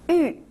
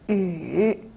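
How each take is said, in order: First: The pitch falls sharply from high. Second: The pitch dips low then rises.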